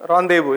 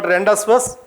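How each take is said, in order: First: "rendezvous" said the French way, with silent z and s; careful model of "rendezvous", ending in an open "voo"; correct pronunciation. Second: Rendezvous misread as "Rendas first"; spelling pronunciation "Rendas first"; wrong pronunciation. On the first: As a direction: pronounce "rendezvous" as ron-day-voo. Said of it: "We should pronounce as". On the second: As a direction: say "Rendas first", sounding out the written consonants. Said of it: "It's not Rendas first". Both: Shown as a demonstration.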